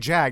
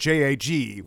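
First: It is pronounced as a single word. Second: It is spelled out letter by letter. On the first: "why do we say JAG" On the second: "the only one that we don't initialize"

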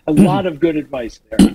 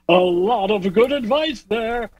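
First: It is said in a plain everyday speaking voice. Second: It is said in a put-on broadcast announcer voice.

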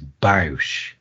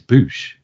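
First: The vowel sounds like the one in cow. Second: The vowel sounds like the one in bush. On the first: The speaker calls it wrong. "Some people pronounce it as Bausch, and it's not" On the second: The speaker calls it right. "It's Bush"

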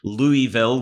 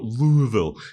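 First: The name is said fully and clearly. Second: The name is said mumbled and slurred together. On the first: This is how outsiders usually say it. The speaker calls it wrong. "would be typically what would roll off your tongue" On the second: This is how the locals say it. The speaker calls it right. "much more Sylvester Stallone"

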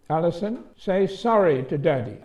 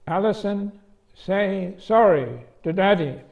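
First: It is said in a plain voice. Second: It is said with tremendous emphasis.

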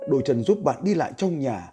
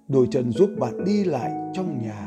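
First: The sentence is read at a fast pace. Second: The sentence is read at a slow pace. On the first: "Đó là cái bài đọc nhanh" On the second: "chúng ta sẽ đến cái bài đọc chậm này"

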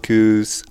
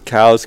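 First: The vowel sounds like the one in 'too'. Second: The vowel sounds like the one in 'now'.

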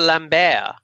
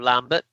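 First: The name is said with a Belgian French pronunciation. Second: The name is said with an English pronunciation. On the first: "Belgian, so I'm going to pronounce it like that" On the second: "instead of Lambert"

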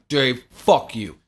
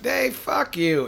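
First: It is said in a hostile, serious tone. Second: It is said in a playful, joking tone.

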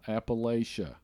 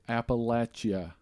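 First: It is said the way northerners pronounce it. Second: It is said the way locals pronounce it. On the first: The speaker calls it wrong. "not Appalachia. For all of you in the north and the west" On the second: The speaker calls it right. "We live in Appalachia"

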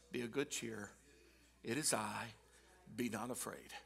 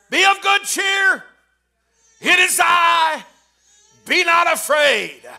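First: It is said quietly. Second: It is said loudly, hollered.

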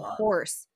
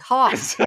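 First: The r sound is clearly pronounced. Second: The r sound is dropped, Boston style. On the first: "My daughter's like" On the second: "the Bostonian accent that comes out of my husband"

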